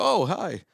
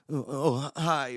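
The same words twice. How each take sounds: First: High, delighted surprised greeting; super excited. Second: Halting, high, startled little hello; awkward greeting. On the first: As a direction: imitate someone thrilled to be greeted. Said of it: "They get super excited". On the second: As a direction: imitate someone awkwardly caught off guard. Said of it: "they're so awkward". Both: Retold or imitated.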